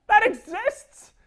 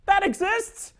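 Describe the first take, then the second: First: Even higher, louder, slow "That exists?"; stunned disbelief. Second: Much higher, louder incredulous question; can't believe it's real; shocked rising that exists; disbelief. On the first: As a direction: stretch the shock out further. Shocked repeat. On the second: Shocked at Woody Woodpecker movie. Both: Real, not acted.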